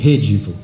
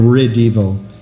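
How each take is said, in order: First: The name is said the Brazilian way. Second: The name is said the American way.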